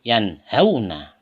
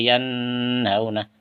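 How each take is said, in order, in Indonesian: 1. Bunyi n pendek dan jelas. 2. Bunyi n memiliki dengung sengau yang panjang. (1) "Seperti ini. ... terang kan?" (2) "Tidak boleh ... Salah"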